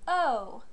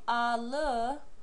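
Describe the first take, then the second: First: One merged vowel sound is pronounced. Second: Two separate syllables are pronounced. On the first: The speaker calls it right. "they say O" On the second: The speaker calls it wrong. "instead of saying a le"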